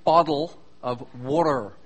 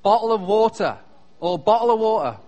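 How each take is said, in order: First: Low mock-American "boddle of wadder"; American "bottle of water". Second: Loud, crisp "bottle of water" with no final R; British "bottle of water". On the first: Brit showing Americans how they say it, mock "boddle of wadder". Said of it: "you say". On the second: Brit demonstrating his own country's way, British "bottle of water". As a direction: say "water" as "waw-tuh", loudly. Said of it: "in Britain is called". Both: Shown as a demonstration.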